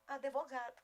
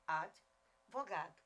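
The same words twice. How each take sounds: First: ADVOGADO with an added E, "a-de-vo-GA-do"; common mispronunciation. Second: ADVOGADO slowly with a mute D, "ad-vo-GA-do"; correct mute D. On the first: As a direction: say ADVOGADO as "adevogado". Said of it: "Mas alguns dizem advogado". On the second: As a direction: say ADVOGADO with no vowel after the D. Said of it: "advogado é um demudo". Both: Shown as a demonstration.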